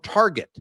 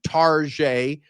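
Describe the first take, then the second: First: The word has its ordinary pronunciation. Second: The word has an altered, fancier pronunciation.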